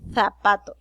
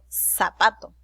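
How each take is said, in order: First: The first sound is a 'th' between teeth. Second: The first sound is a plain 's' hiss. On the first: "ellos dicen zapato" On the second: "ese zapato suena como una S"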